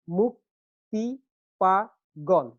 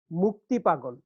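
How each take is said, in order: First: "মুক্তি পাগল" slowly, split into four beats; syllable by syllable. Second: Said in the usual way. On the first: Shown as a demonstration. Teacher breaking down the second foot, each syllable apart. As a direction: count out মুক, তি, পা, গল with pauses. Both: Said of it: "চার মাত্রা একটা পর্ব".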